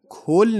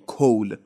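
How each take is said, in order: First: The vowel is short and clipped. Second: The vowel is drawn out and longer. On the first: The speaker calls it wrong. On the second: The speaker calls it right.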